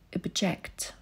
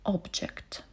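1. Akcent pada na drugą sylabę. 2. Akcent pada na pierwszą sylabę.

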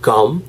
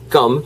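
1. "gum"은 영어식 g 소리로 발음합니다. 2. "gum"은 한국어 단어 껌처럼 발음합니다. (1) "꼭 gum" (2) "not gum"

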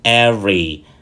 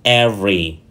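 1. Từ này được phát âm có hai âm tiết. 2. Từ này được phát âm có hai âm tiết.

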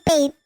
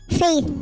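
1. Wala ang F sa simula at ang TH sa dulo. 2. Nagsisimula ito sa F at nagtatapos sa TH. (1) "Hindi faith" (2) "Faith with letter F, TH sa huli"

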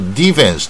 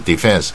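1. 重音在第一个音节。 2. 重音在第二个音节。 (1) "他一定教练球员一定说defense" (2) "明明是第二个音节"

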